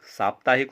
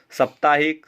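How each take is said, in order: First: साप्ताहिक with a long first vowel, saaptaahik; correct pronunciation. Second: साप्ताहिक with a short first vowel, saptaahik; wrong pronunciation. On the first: Teacher giving the correct word, long 'saap' in साप्ताहिक. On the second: Teacher showing a common error, short 'sap' in साप्ताहिक. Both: Shown as a demonstration. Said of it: "साप्ताहिक होता है".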